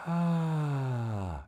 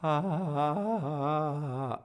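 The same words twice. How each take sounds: First: Breathy ah. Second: Squeezed ah. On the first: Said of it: "for you to do breathy". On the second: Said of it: "maybe this happened". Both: Shown as a demonstration.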